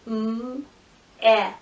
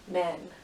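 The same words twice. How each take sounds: First: "M-e-n" as held m, short eh, held n; sounded out. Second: Said in the usual way. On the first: Shown as a demonstration. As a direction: pause between each sound of "M-e-n". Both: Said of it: "every sound you hear".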